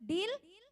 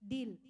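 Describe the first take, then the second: First: "deal" with a high rising tune; "deal" swept upward as a question. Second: "deal" short and low, falling; "deal" dropped low as a statement; confirming. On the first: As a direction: ask "deal" as a check for agreement. Asks congregation to agree. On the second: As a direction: close it off with a settled "deal". Settles the agreement. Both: Real, not acted.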